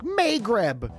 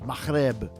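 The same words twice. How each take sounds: First: It is said with an English pronunciation. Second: It is said with an Arabic pronunciation. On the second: "in Arabic is Maghreb"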